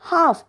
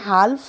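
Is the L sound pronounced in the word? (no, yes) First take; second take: no; yes. First: The word is said with a silent L. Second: The word is said with an audible L. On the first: The speaker calls it right. "H A एल F म्हणजे हाफ" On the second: The speaker calls it wrong. "आपण हाल्फ नाही बोलत"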